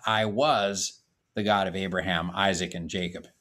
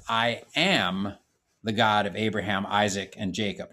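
First: "was" pushed out as the wrong past tense; "I was" stressed as the contrasting tense. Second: "am" leaned on as present tense; "I am" stressed, steady and level. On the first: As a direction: hit "was" to set it against "am". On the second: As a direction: land on "am" to show it is now. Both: Shown as a demonstration.

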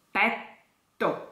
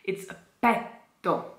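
First: "Petto" with a held double T; "Petto", pause on the T before the o; doubled T. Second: Petto with a single soft T; "petto" said as pet-o, no doubled T; wrong petto. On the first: Diction coach models "Petto" with a doubled T. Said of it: "Double T". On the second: Teacher shows the wrong way to say "petto". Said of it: "Never say that". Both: Shown as a demonstration.

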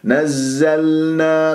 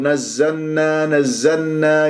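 First: نزلنا very slow, clear held l before n; audible lām. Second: نزلنا said as "nazzannā", l lost; lām merged into nūn. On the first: Teacher shows the correct way, lām audible in نزلنا. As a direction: make the lām in نزلنا ring out. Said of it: "بهذه الطريقة أسمع اللام". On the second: Teacher imitates some reciters' mistake, lām merged into nūn. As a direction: swallow the l of نزلنا into the n. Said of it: "يدغم اللام في النون". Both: Shown as a demonstration.

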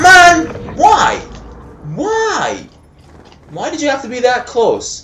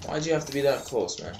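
First: High, loud, protesting cry; anguished wail. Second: Softer, quick grumble; subdued complaint. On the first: Gamer laments an enemy standing too close, anguished wail. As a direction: wail the complaint at a high pitch. Wails at being killed up close. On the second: Gamer repeats his complaint to the enemy, subdued grumble. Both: Real, not acted.

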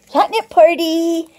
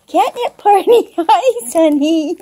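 First: Said in the usual way. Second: Higher, laughing sing-song; delighted giggly catnip cheer. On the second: Real, not acted. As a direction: giggle it out to the cats. Repeating phrase, laughing.

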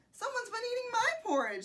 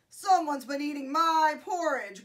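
First: High-pitched storybook mother bear; Mama Bear voice. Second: Loud, gruff storybook bear; Papa Bear growl. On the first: Mama Bear finds her porridge eaten, high voice. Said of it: "said the Mama Bear". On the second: Papa Bear finds his porridge eaten, growled. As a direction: growl it out loudly as the big bear. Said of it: "growled the Papa Bear". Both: A narrator's reading.

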